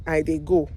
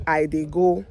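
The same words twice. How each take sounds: The two takes are said the same way.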